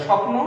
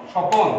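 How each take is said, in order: First: Said in the usual way. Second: স্বপন said "shopon", cluster split by an o; inserted middle vowel. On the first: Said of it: "তখন বলতে হবে স্বপ্ন". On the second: Shown as a demonstration. Teacher contrasting forms for students, স্বপন with an o between p and n. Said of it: "তাহলে তখন উচ্চারণ হবে".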